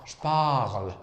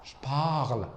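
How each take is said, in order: The two takes are said the same way.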